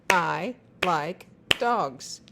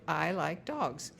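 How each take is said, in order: First: I like dogs, each word slow and loud, one clap per word; slow, clapped word by word. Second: Said in the usual way. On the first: Shown as a demonstration. Parent showing a child how to clap each word, slow and loud. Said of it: "clap the words". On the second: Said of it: "if you say".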